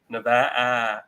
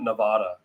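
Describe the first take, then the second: First: The middle vowel sounds like the a in add. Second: The middle vowel sounds like the a in father. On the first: The speaker calls it right. "it's it's Nevada, Nevada, Ada" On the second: The speaker calls it wrong. "not Nevada"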